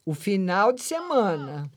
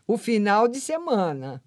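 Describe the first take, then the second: No difference in how they are said.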